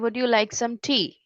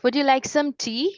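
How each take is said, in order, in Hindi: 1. Pitch पूरे सवाल में सपाट रहती है। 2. पिच नीचे से शुरू होती है और धीरे-धीरे ऊपर जाती है। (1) "सिंपल सा अगर टोन बोलते हैं ... it doesn't sound better" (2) "when we are speaking like ... it sounds better"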